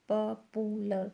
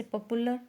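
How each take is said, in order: First: "popular" split as pa, pu, lar; syllable by syllable. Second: Said in the usual way. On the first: Shown as a demonstration. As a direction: sound out "popular" in three separate beats. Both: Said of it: "three syllable word है".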